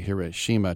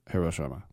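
First: One syllable carries strong stress. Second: All syllables carry even stress. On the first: The speaker calls it wrong. "you don't say" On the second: The speaker calls it right. "there's no accents or emphasis"

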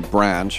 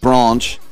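First: It is said with an American accent. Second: It is said with a British accent.

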